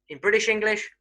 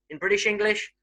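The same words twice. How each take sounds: Both takes have the same delivery.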